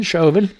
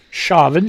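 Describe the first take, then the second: First: Chauvin said SHOW-vin; second way to say Chauvin. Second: Chauvin said SHAH-vin; first way to say Chauvin. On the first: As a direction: Chauvin with an oh vowel, French-like. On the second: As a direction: Chauvin with an open ah vowel. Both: Shown as a demonstration. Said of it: "Tomato, tomato".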